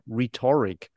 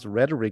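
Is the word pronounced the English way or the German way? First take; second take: German; English. First: The word is pronounced the German way. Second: The word is pronounced the English way. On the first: The speaker calls it wrong. "I always thought it's, like, rhetoric. Because that's how we pronounce it in German" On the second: The speaker calls it right. "I just recently learned that you pronounce rhetoric"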